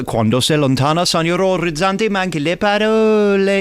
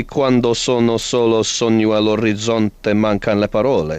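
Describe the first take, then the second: First: Mock-operatic Italian with an English speaker's vowels; amateur Italian. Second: Fluent Italian pronunciation, correcting an amateur; polished, native-sounding Italian line. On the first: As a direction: have a bold go at Italian, rising higher. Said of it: "I can do a bit of Italian". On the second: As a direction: show how the Italian should properly sound. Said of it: "were you trying to say". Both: Shown as a demonstration.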